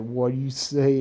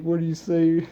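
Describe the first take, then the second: First: Mildly raised, half-acted Naruto retort; lightly voiced annoyed Naruto; mock Naruto challenge. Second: Higher and pushed, hammed-up Naruto challenge; half-acted angry kid ninja shout; mock Naruto yell. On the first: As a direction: toss it back like a cocky kid, lightly. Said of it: "He's like". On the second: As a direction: bark it at the kid, playing it up. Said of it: "He was like".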